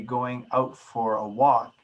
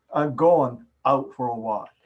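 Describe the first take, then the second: First: "going" said with its full -ing ending; careful full enunciation. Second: "going" clipped to "goin'", final g dropped; slurred enunciation. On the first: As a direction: form every word of "going out for a walk". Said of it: "If you were to say that". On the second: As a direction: drop the -ing ending of "going". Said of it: "but you say this". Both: Shown as a demonstration.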